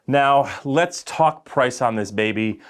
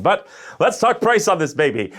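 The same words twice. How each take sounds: First: Slow salesy pitch; used car salesman. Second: Higher, louder sales pitch; used car salesman. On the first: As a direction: sell it like a car dealer. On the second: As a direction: pump it up like a car lot ad. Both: Pretend. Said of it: "I just sounded like a used car salesman".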